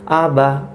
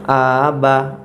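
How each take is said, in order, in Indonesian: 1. Vokalnya dibuat pendek dan singkat. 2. Vokalnya dipanjangkan. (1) "Padahal pendek di sini" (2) "ini yang salah, bacaan yang salah"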